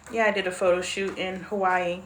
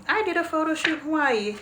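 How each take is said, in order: First: Said in the usual way. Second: Playful repeat. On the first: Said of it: "first take". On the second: Shown as a demonstration. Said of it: "repeat of same line".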